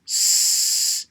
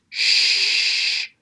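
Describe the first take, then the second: First: Long, held hissing S for "s"; "s" as a sustained sibilant, no vowel; sustained s sound. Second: Long, held SH for "sh"; "sh" as a sustained hush, no vowel; sustained sh sound. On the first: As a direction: say "s" as the bare consonant, drawn out like ssss. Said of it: "pronounced s". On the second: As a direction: say "sh" as the bare consonant, drawn out like shhh. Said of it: "pronounced sh". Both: Shown as a demonstration.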